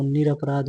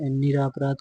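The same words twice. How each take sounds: First: निरपराध with short a after r; correct vowel. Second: निरापराध with long aa after r; wrong vowel. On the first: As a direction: say ni-ra-pa-raadh for निरपराध. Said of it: "होता है". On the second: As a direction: say ni-raa-pa-raadh for निरापराध. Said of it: "को निरपराध होता है". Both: Shown as a demonstration.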